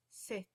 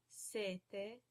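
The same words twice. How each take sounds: First: Sette with the t held; double consonant. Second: Sete with one short t; single consonant. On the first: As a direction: pause on the tt in sette. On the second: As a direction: say sete with a long first e and quick t. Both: Shown as a demonstration. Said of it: "you pronounce that consonant longer".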